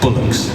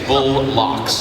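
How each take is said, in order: First: It is said as one joined word. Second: It is said as two separate words. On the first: The speaker calls it right. "don't say it like that, you brat. It's bullocks. Say it after me" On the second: The speaker calls it wrong. "spelled it B U L L hyphen L O C K S, bull locks. And so that's what I said"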